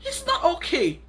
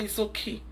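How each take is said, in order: First: "not" pushed much higher and louder with a falling finish; indignant correction, loud high "not"; stress on NOT. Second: Softer, shrugging "It's okay"; dismissive mock calm; mock indifference. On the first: Real, not acted. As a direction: hammer the "not" in "It's not okay". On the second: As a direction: say "It's okay" as if it didn't matter. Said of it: "I'll just look at it and say".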